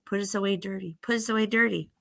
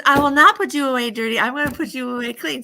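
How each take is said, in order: First: Chanted, lightly voiced, understated repeated urging; chanted, urge it evenly, like a small refrain; chanting dirt. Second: Put-on loud, raised, resolute little girl; firm refusal. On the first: Dirt on the dishes tempts the girl, understated chant. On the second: Good girl refuses to leave dishes dirty, loud and firm. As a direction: refuse loudly with voice lifted.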